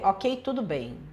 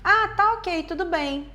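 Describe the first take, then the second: First: Dry, low, clipped okay; curt and dismissive. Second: Bright, high, relaxed agreement; cheerful and easygoing. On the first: Reader hearing the text as dismissive, curt and cold. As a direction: read it as cold disdain. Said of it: "Eu posso ler". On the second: Partner texting back, sounding cheerful and agreeable. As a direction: sound genuinely fine with it. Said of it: "a pessoa pode tá dizendo assim". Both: Shown as a demonstration.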